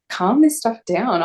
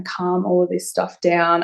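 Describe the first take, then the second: First: "Calm this stuff down" drawn out slowly, higher in pitch; incredulous echo. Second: Said in the usual way. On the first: Retold or imitated. Patient echoing the mental health nurse's offer, incredulous, slow on "Calm this stuff down". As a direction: throw "Calm this stuff down" back as a slow, disbelieving question. Echoing the doctor's words in disbelief.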